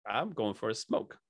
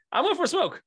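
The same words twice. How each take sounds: First: Sheepish fib. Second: Squeaky, higher innocent fib; mock innocent high voice. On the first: Retold or imitated. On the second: Guest mimicking himself at the hotel lobby, high innocent voice. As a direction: play it like a guilty kid. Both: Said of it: "I'm like".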